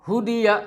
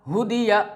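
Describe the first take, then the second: The two takes are said the same way.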